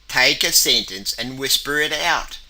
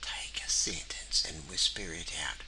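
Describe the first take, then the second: First: The sentence is said in a loud, bold voice. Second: The sentence is whispered very quietly. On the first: "Now we use a bold voice" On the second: "We'll do the low voice, whisper voice"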